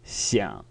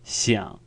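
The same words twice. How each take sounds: First: The pitch stays low with a soft creak. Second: The pitch stays low with a soft creak.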